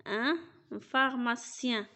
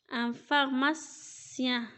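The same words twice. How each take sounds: First: \"ان فارماسيان\" said once more, slow, ending /faʁmasjɛ̃/ falling; repeated model word. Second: \"ان فارماسيان\" said slowly, French /ɛ̃ faʁmasjɛ̃/; slow model word. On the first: Teacher repeating pharmacien for pupils, slow. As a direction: repeat pharmacien slowly for the class. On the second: Teacher modelling the word pharmacien, slow. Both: Shown as a demonstration.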